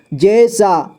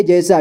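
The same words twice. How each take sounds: First: जैसा split as जै, सा; syllable by syllable. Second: Said in the usual way. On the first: Shown as a demonstration. Teacher showing learners जैसा, sounded out in parts. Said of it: "इसे पढ़ेंगे जैसा". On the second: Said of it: "इसे पढ़ेंगे".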